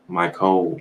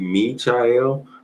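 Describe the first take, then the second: First: The ending is said with a 'kol' sound. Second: The ending is said with a 'chal' sound. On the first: The speaker calls it wrong. "I don't know where they get that code from" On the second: The speaker calls it right. "it's supposed to be me child or my child"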